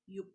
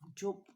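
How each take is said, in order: First: The word begins with a Y sound. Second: The word begins with a J sound. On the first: "in German, they pronounce is as in Y or Yup" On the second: "we pronounce this one Jupe in our language because this is J"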